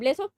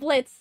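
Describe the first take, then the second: First: The name ends with a spoken O vowel. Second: The name ends without any O vowel.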